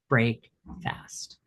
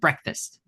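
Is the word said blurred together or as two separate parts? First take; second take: separate; blurred. First: The word is said as two separate parts. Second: The word is blurred together as one unit. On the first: "What is it really?" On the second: "We say it like this blurred like word"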